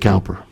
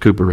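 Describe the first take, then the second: First: The first syllable rhymes with 'cow'. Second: The first syllable rhymes with 'coo'. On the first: This is how the speaker's own community says it. "We would say Cowper" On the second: This is how it is said in English. "but it's pronounced Cooper in English"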